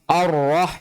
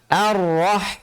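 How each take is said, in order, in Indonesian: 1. Bunyi vokal pertama gelap dan membulat, seperti o. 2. Bunyi vokal pertama tipis dan terbuka, seperti a. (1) "a jangan dibaca o" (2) "tapi a"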